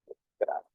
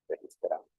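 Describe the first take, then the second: First: A soft, half-voiced murmur of the word as it's typed; teacher murmuring the word being typed; murmured while typing. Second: Said in the usual way. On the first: Shown as a demonstration. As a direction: breathe the word out under your breath while typing.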